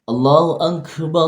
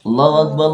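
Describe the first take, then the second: First: The phrase is said slowly and drawn out. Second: The phrase is said quickly without drawing out. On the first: It gives latecomers time to arrive. "Azan mempunyai tempo yang lebih pelan" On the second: The people are already present. "Kalau komat"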